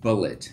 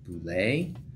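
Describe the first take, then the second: First: It sounds just like the word bullet. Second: It sounds different from the word bullet. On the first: The speaker calls it right. "I'm gonna continue calling it Bullet" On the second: The speaker calls it wrong. "I didn't see anywhere in the internet machine where they call it Boulet"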